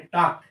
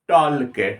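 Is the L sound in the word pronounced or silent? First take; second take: silent; pronounced. First: The L sound is silent. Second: The L sound is pronounced. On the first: The speaker calls it right. "टॉक का सही pronunciation तो टॉक होगा ही" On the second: The speaker calls it wrong. "अगर एल को लेता मैं तो बोलता टॉल के"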